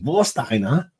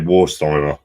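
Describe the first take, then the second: First: It is said with a German accent. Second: It is said with a plain English accent.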